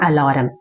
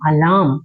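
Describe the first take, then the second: First: The 'r' sound is pronounced. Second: The 'r' sound is silent. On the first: The speaker calls it wrong. "Not அலாரம்" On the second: The speaker calls it right. "ஆர் வந்து சைலண்டா இருக்கணும்"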